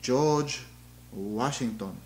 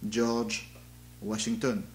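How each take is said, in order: First: It is spoken with a Japanese accent. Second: It is spoken with a French accent. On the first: "A Japanese speaker, speaker might say something like" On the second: "How would a French speaker say it?"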